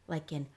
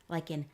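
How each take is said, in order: The two takes are said the same way.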